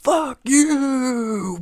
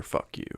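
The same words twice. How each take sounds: First: Crying out high, drawn out; anguished cry. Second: Barely audible, tossed under the breath; muttered curse. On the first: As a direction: wail it like a curse flung at the sky. Crying out a curse. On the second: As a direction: mumble it to nobody. Muttered aside at Street Fighter. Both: Acted.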